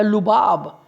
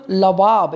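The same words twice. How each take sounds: First: लुबाब with a short "u" in the first syllable, "lu-BAAB"; first vowel as U. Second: लबाब with a short "a" in the first syllable, "la-BAAB"; first vowel as A. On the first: Teacher offering the alternative reading of a title, लुबाब said "lu-BAAB". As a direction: say लुबाब slowly, opening on "lu". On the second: Teacher giving one reading of a book title, लबाब said "la-BAAB". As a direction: say लबाब slowly, opening on "la". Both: Shown as a demonstration. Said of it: "लबाब या लुबाब".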